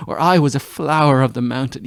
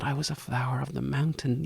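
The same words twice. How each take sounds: First: Louder, swelling declaration; exultant. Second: Hushed, tender memory of his words; soft recollection. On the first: Acted. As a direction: proclaim it joyfully. Echoing his words, now exultant. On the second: Retold or imitated. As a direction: say it softly, as if remembering. Lover's words, softly recalled.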